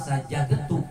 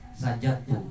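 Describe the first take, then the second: First: The d sound is pronounced clearly before t. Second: The d sound merges into the following t. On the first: The speaker calls it wrong. "nggak boleh dibaca laka sajadtu" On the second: The speaker calls it right. "Namanya idgham mutaqarribain"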